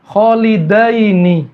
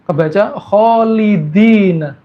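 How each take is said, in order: First: Kholidaini very slowly, dai with a; drawn-out Kholidaini, open dai; correct recitation. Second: Kholidina slowly, di with i; wrong reading. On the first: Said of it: "fathah dengan kasroh". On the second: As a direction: drawl kholidina, the error. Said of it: "Fathahnya diganti apa?". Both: Shown as a demonstration.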